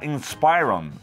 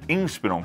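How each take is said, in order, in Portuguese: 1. O começo não soa como inspiration. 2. O começo soa como inspiration. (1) "Sei que muita gente fala Inspiron" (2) "Inspiron se pronuncia desse jeito. ... que vem de inspiration"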